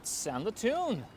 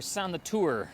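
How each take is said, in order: First: It ends in a plain -un, no added R. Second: It ends with an added R sound.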